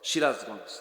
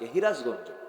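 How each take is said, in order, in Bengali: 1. শব্দটি স-ধ্বনি দিয়ে শুরু হয়। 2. শব্দটি হ-ধ্বনি দিয়ে শুরু হয়।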